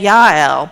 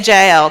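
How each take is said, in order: First: The name begins with a 'y' sound. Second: The name begins with a 'j' sound.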